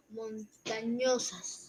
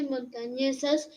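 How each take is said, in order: First: "montañosas" spelt out slowly, with O in place of E; slow, lower "montañosas", pointing out the misread vowel; palabra mal leída. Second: Said in the usual way. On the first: Retold or imitated. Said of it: "dijo montañosas". («montañosas» lento, marcando la O equivocada) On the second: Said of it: "donde dice montañesas".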